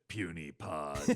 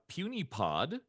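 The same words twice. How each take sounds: First: It is said in a gruff Hulk voice. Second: It is said in his normal voice.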